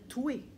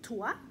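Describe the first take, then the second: First: The vowel sounds like Québécois 'wé'. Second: The vowel sounds like standard European French 'wa'. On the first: "on va dire toué" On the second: "au lieu de dire toi"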